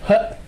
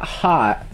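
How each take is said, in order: First: The vowel sounds like the vowel in 'hut'. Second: The vowel sounds like the vowel in 'hot'. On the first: It imitates a friend's way of saying the word. "You go. Hut" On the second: It is the usual way of saying the word. "You're not hot"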